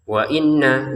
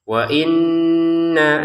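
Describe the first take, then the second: First: The nasal hum on the n is cut short. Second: The nasal hum on the n is held long. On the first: The speaker calls it wrong. "wa inna kan kurang" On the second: The speaker calls it right. "nanya lima harokat ya"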